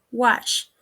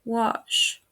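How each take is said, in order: First: "wash" with a short open a; mispronounced. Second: "wash" with a longer back vowel; correct pronunciation. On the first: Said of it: "mispronounced is". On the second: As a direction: say "wash" as wawsh. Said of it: "The correct pronunciation is". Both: Shown as a demonstration.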